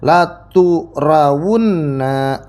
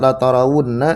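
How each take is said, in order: First: The vowel after the first t is u. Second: The vowel after the first t is a. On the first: "atanya itu di dhamma" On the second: "tanya di fathah"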